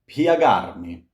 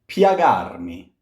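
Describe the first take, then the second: No difference in how they are said.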